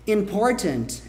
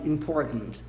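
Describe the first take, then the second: First: Both the R and the T are clearly pronounced. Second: The T is swallowed in the back of the throat. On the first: "Important é possível" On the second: "Uma pronúncia americana bem Nova York... engole"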